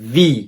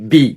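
First: It begins with a v sound. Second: It begins with a b sound. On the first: The speaker calls it right. "আসলে এটা হবে ভি" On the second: The speaker calls it wrong. "এই আমরা সবাই বলি বি"

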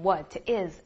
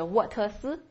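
First: It is said as two separate words. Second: It is said with three separate syllables. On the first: "所以再也不要读成what is" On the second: "或者是沃特斯，不要这样"

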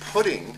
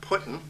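First: The word ends fully, with ng. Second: The word ends clipped, like puttin. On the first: The speaker calls it right. "It's putting" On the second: The speaker calls it wrong. "It's not putting"

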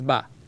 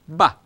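First: The vowel is held long. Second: The vowel is short and clipped. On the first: "and this is ba" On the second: "this one is short"

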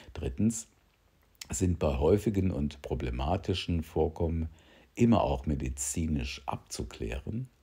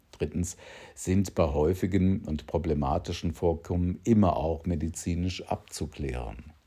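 The two takes are said the same way.

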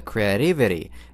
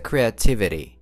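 First: The first t is a soft flap sound. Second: The first t is a clear, full t sound. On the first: The speaker calls it wrong. "вместо creativity" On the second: The speaker calls it right. "говорится creativity"

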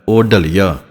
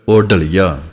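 No difference in how they are said.

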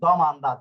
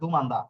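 First: The first vowel sounds like 'o'. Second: The first vowel sounds like 'u'. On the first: The speaker calls it right. "আসলে হবে দমান্দা" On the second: The speaker calls it wrong. "দুমান্দা না"

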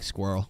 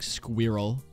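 First: The word is said as one syllable. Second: The word is said as two syllables. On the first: "We just only have one syllable here in the U.S" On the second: "like kind of with two syllables"

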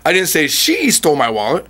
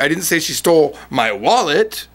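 First: The word 'she' is stressed. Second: The word 'wallet' is stressed. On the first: Someone else stole the wallet, not her. "which means she didn't steal your wallet, but someone else did" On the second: She stole something, just not the wallet. "which implies she stole something else"

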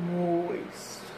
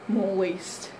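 First: The word is drawn out very slowly. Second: The word is said at normal speed.

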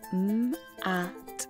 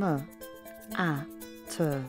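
First: Each sound is said short, with no extra vowel. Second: Each consonant carries an extra vowel sound after it. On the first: The sounds are easy to blend into a word. The speaker calls it right. "It's easier for a child to put the sounds m, a, t together" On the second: The sounds are harder to blend into a word. The speaker calls it wrong. "than m, a, t"

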